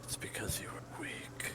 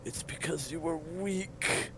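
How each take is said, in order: First: Whispered, ghostly echo of accusation. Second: Accusing master. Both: Acted.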